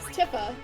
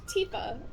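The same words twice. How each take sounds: First: The first vowel sounds like 'eye'. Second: The first vowel sounds like 'ee'. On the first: The speaker calls it wrong. "I pronounced her as Tifa" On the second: The speaker calls it right. "pronounce the I like an E"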